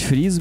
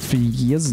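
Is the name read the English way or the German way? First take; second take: German; English. First: The name is said as one short syllable. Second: The name is said with two separate vowels. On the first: "По-немецки, если читать Фриз" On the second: "по-английски Фриез"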